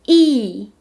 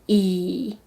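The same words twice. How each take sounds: First: The pitch falls sharply from high to low. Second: The pitch dips low, then rises.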